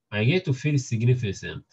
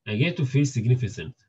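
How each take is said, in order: Both takes have the same delivery.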